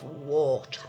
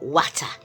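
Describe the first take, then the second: First: It is said in the speaker's ordinary accent. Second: It is said in an old-fashioned Yorkshire accent.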